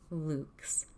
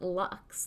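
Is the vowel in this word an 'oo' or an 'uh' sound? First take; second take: oo; uh. First: The vowel is an 'oo' sound. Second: The vowel is a short 'uh' sound. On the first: The speaker calls it right. "is actually pronounced correctly in the Latin" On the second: The speaker calls it wrong. "it isn't lux, like in the English word umbrage"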